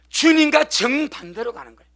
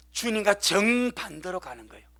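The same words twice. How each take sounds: First: 주님과 stressed, louder, falling; emphatic repeat. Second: Said in the usual way. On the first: Shown as a demonstration. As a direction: hit 주님과 hard and let it fall. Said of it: "repeated with force". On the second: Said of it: "repeated louder".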